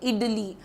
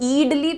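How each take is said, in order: First: The first vowel is a short i sound. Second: The first vowel is a long ee sound. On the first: The speaker calls it right. "जैसे इडली बोलते हो" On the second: The speaker calls it wrong. "ईडली तो नहीं बोलते"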